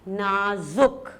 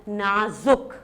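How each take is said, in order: The two takes are said the same way.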